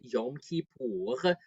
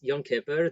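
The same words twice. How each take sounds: First: It is said in a non-Ashkenazi pronunciation. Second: It is said in an Ashkenazi pronunciation. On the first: "I would have thought that the correct way to pronounce the holidays was" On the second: "given the upbringing that I had at first, I was like, no, this is"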